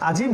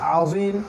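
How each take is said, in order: First: The z-sound is a plain j-like sound. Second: The z-sound uses rounded lips and the tongue tip. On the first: The speaker calls it wrong. "আজিম না" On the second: The speaker calls it right. "মুখটা একটু গোল হবে এবং জিব্বার অগ্রভাগ থেকেই উচ্চারণ করতে হবে"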